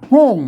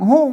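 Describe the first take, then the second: First: The word carries the ordinary second tone. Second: The word carries the special second tone. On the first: It is the usual standard pronunciation. "ห้องมันเสียงอันโทปกติ" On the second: It is the Lanna pronunciation. "ห้องมันเสียงโทพิเศษ"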